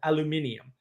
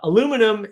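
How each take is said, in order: First: The word ends in '-nium', five syllables. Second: The word ends in '-num', four syllables. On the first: The speaker calls it right. "which is how it was spelled prior" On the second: The speaker calls it wrong. "aluminum is not the way you say that word"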